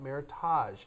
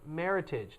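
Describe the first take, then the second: First: The ending sounds French, like garage. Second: The ending rhymes with heritage. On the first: The speaker calls it wrong. "not Meritage. It is not a French word" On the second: The speaker calls it right. "It is pronounced Meritage, ... It is the words merit and heritage put together"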